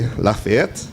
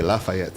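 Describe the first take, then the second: First: The name is pronounced the French way. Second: The name is pronounced the Jamaican way. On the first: This is the family's own pronunciation. "it's actually Lafayette" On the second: This is how people locally say it. "in Jamaica they say Lafayette, you know, Jamaican version"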